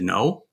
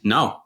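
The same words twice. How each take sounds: First: It rises like a question. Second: It falls firmly like an exclamation.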